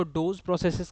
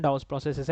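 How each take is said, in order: First: "डोज" said with a long o; "डोज" with an o vowel, as some people say it; variant pronunciation. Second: "Dawes" said with an open vowel, not "dose"; "Dawes" as the proper name, without the long o of "dose"; correct pronunciation. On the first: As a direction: say "डोज" to rhyme with "rose". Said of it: "pronunciation आपकी कुछ भी हो सकती है". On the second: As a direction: say "Dawes" with an aw or ow sound. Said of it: "सही pronunciation". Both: Shown as a demonstration.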